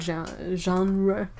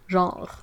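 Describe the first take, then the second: First: It is said with an English accent. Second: It is said with a French accent. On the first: "I have to make an effort to say it with an English accent" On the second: "if I say it in French, nobody's gonna get it"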